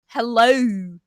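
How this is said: The vowel glides like an ou sound. "There's, like, an O U"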